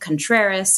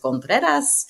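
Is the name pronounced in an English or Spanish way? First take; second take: English; Spanish. First: The name is pronounced in an everyday English way. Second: The name is pronounced in a careful Spanish way.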